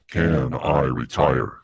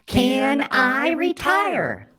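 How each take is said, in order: First: It is said in a dark, ominous voice. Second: It is said in a mocking put-on voice.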